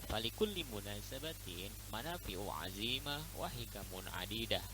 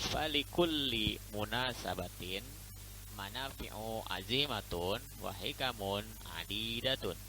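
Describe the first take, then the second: First: It is read quickly with the endings dropped. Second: It is read carefully with full word endings.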